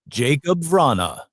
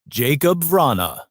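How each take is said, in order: Both takes have the same delivery.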